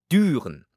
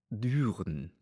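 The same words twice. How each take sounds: First: "Düren" said higher and louder with a firm falling close; "Düren" spoken back by the pope, louder and higher with a falling tune; Düren repeated, pope's voice. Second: Said in the usual way. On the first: A narrator's reading. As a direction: echo the name "Düren" loudly, dropping at the end.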